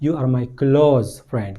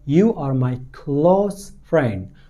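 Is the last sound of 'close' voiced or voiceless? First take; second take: voiced; voiceless. First: Close ends in a buzzing voiced z sound. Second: Close ends in a hissing voiceless s sound. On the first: The speaker calls it wrong. "आपको ऐसा नहीं कहना" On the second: The speaker calls it right. "आपको कहना होगा"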